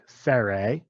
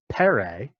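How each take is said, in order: First: The word begins with an f sound. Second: The word begins with a breathy p sound. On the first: The speaker calls it wrong. "instead of f like you're used to" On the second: The speaker calls it right. "probably better pronounced as pere, with a puff of breath"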